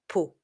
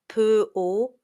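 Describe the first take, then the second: First: The consonant and vowel are said together. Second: The consonant and vowel are said apart. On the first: The speaker calls it right. "you say po" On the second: The speaker calls it wrong. "You don't say po"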